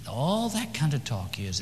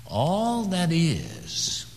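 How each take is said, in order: First: Said in the usual way. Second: Drawn-out whisper, pitch high; slow hushed whisper. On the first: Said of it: "listen to me". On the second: Acted. Preacher whispers to hush the congregation, drawn out. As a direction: breathe it slowly. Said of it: "Can you hear me?".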